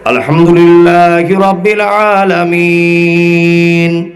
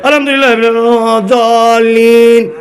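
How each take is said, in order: First: It is recited slowly. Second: It is recited quickly.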